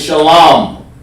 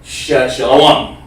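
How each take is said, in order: First: The word is said with a plain, ordinary pronunciation. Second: The word is said with an altered, odd pronunciation. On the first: This is the original form of the word. The speaker calls it right. "the word is actually shalom" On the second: This is how another group says it. The speaker calls it wrong. "They say it funny"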